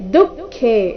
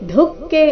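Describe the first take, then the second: First: The final e vowel is long. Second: The final e vowel is short. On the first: The speaker calls it right. "ಖೇ ಮಹಾಪ್ರಾಣ ದೀರ್ಘ" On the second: The speaker calls it wrong. "ಇಲ್ಲಿ ದುಃಖೆ ಅಂತ ಇಲ್ಲ"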